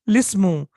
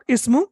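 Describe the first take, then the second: First: The word is joined to the preceding l sound. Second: The word starts separately with its own vowel onset. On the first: The speaker calls it right. "you're pronouncing it lismu" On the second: The speaker calls it wrong. "not ismu"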